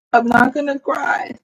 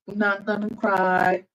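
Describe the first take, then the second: First: Half-laughing, voice close to crying; laughing through tears. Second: Said in the usual way. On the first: Real, not acted. Streamer touched her viewers never heard her clapping, laughing close to tears. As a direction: laugh while fighting back tears.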